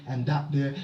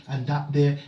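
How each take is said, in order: Both takes have the same delivery.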